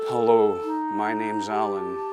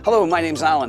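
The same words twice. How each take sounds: First: The speaker sounds flat and unenthusiastic. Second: The speaker sounds warm and smiling.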